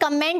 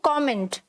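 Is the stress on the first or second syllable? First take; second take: second; first. First: The stress falls on the second syllable. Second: The stress falls on the first syllable. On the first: The speaker calls it wrong. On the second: The speaker calls it right.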